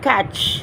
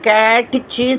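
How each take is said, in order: First: The word ends on the consonant sound. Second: The word ends with an added vowel sound. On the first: The speaker calls it right. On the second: The speaker calls it wrong.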